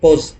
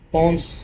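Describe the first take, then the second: First: The n sound is left silent in the word. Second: The n sound is pronounced in the word. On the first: "एन silent है। ... पोस बोलो उसको" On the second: "पोन्स या पोस"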